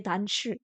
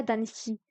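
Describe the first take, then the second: First: "danshi" said with a clear sh sound; "danshi" with a sh, as in class. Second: "danshi" said with a plain s instead of sh; "danshi" copying her accent, sh turned to s. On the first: Shown as a demonstration. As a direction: say "danshi" the way it was taught at university, with sh. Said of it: "elle le dit i, et moi, j'avais l'habitude ... on disait danshi". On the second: Retold or imitated. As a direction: say "danshi" like the speaker on the recording, with s. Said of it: "Bref, c'est son accent".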